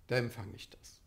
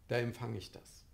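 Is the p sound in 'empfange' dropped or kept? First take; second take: dropped; dropped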